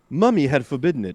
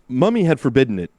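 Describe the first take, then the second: First: It is said in a put-on British accent. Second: It is said in the speaker's natural accent.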